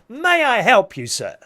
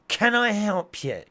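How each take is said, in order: First: It is said in a smiling, happy tone. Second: It is said in a miserable tone.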